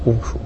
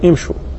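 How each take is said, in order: First: The word begins with a u vowel. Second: The word begins with an i vowel. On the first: The speaker calls it wrong. "ولا يقال امشوا" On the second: The speaker calls it right. "فهنا تكسر الهمزة فيقال امشوا"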